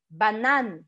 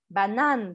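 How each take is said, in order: The two takes are said the same way.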